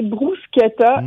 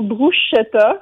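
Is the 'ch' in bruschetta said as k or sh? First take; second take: k; sh. First: The ch is said as a k sound. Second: The ch is said as a sh sound. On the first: The speaker calls it right. "il faut prononcer bruschetta ... comme le CH dans Pinocchio" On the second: The speaker calls it wrong. "et non bruschetta"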